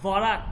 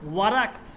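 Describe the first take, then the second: First: The word begins with a v sound. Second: The word begins with a w sound.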